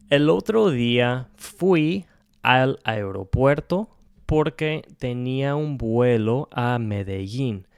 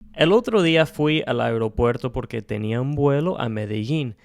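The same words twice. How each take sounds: First: It is spoken more slowly than normal speech. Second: It is spoken at a normal conversational speed. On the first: "we're going to say it again, just slower" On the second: "I'm going to say this right now at a normal pace"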